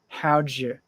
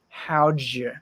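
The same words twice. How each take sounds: First: The words are squeezed together into two syllables. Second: The words are squeezed together into two syllables.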